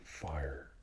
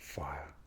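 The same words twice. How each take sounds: First: It is said in an American accent. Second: It is said in a posh English accent, no R. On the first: "Or the American fire" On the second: "You would pronounce it without the R for the posh English"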